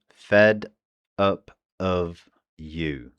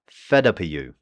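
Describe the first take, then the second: First: "fed up of you" slowed down to show each sound. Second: "Fed up of you" run together, "of" reduced to a light "uh"; "Fed up of you" at natural speed, "of" swallowed; weak of. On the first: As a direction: spell out "fed up of you" slowly, one sound at a time. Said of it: "this will become the I P A". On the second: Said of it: "the V in of becomes very weak". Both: Shown as a demonstration.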